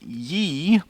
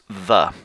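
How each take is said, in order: First: The word begins with a 'y' sound. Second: The word begins with a 'th' sound. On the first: The speaker calls it wrong. "you shouldn't pronounce it ye" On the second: The speaker calls it right. "So it should be pronounced the"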